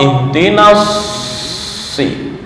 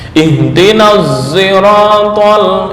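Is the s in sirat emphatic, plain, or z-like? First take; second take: emphatic; z-like. First: The s is a heavy, emphatic s. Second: The s sounds like z with rounded lips. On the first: "membaca dengan shad murni" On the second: "membaca ishmam shad berubah menjadi suara za, tapi dengan posisi ishmam, artinya bibir mencucu ke depan"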